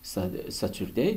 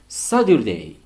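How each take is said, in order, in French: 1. La consonne du milieu est un t clair. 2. La consonne du milieu est un d doux. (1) "Saturday devient" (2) "au lieu de T, on prononce D"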